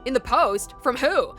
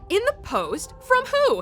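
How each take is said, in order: First: It is said with a plain American inflection. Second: It is said with a European-sounding inflection. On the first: "instead of going like" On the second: "he was like ... like that's kind of more of a European thing"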